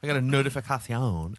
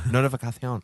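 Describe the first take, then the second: First: Spanish-accented notificación, th-lisped c; notificación said the Spanish way, notifikathion. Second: Spanish accent. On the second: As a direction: repeat notificación in a hammy Spanish accent. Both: Shown as a demonstration. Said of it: "that was a Spanish accent".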